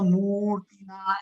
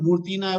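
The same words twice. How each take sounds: First: The final vowel is drawn out long. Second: The final vowel is said short. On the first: The speaker calls it right. "લાંબુ લાંબી રીતે" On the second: The speaker calls it wrong. "એવું નથી બોલવાનું"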